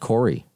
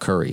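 First: The first vowel sounds like 'or'. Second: The first vowel sounds like 'ur'. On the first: The speaker calls it right. "Fred Corey" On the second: The speaker calls it wrong. "not Curry"

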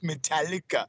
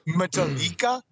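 First: The name is said the usual English way. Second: The name is said with Spanish-style sounds. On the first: This is the band's real name. The speaker calls it right. "it's pronounced Metallica" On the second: This is a guess from reading the name. The speaker calls it wrong. "I would think it was Metallica. ... a Latin metal band"

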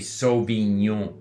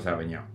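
First: The vowels are pronounced fully and clearly. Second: The vowels are slurred and reduced. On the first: "we don't clearly say" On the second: "We go Sauvignon. ... we just kind of slur the vowels"

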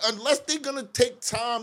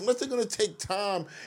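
First: It is said at a louder volume. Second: It is said at a lower volume.

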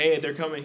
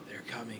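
First: It is said in a casual, normal way. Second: It is said in a grave, dramatic way.

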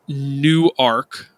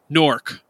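First: The word is spread over two syllables. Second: The word is squeezed into one syllable. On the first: This may be how the Delaware city's name is said. The speaker calls it wrong. "It sounds more like N-O-R-K than N-E-W-A-R-K" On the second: This is how local people say the city's name. The speaker calls it right. "is Nork, not Newark"

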